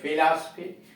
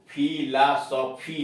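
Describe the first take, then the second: First: The word begins with an f sound. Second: The word begins with an aspirated p sound. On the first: The speaker calls it right. "फॉ के लिए यफ आता है। जैसे फिलॉसफी" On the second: The speaker calls it wrong. "यह फिलॉसफी नहीं है।"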